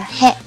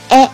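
First: It is pronounced with an h sound, 'he'. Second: It is pronounced without an h sound, 'e'. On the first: This is the reading of the kana in the syllabary. "应该读成的是嘿" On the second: This is the reading of the kana when used as a particle. "当它用助词讲的时候呢，我们就给它读成的是哎"

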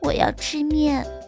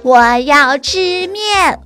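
First: It is said in a very small, quiet voice. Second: It is shouted with full force.

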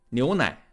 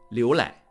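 First: The syllables begin with an n sound. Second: The syllables begin with an l sound. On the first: This is the standard Mandarin pronunciation. The speaker calls it right. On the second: This is the Anhui dialect pronunciation. The speaker calls it wrong.

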